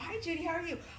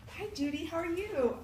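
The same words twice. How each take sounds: First: The greeting sounds cold and dismissive. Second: The greeting sounds warm and welcoming. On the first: The other person is being closed off. The speaker calls it wrong. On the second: The other person is being accepted. The speaker calls it right.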